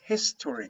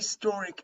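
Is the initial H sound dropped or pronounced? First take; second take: pronounced; dropped. First: The word starts with a clear H sound. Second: The word starts without an H sound. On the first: The speaker calls it right. "it's historic. You have to H here" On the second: The speaker calls it wrong. "if you say historic, no, no"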